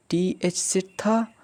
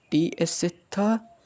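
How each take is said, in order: Both takes have the same delivery.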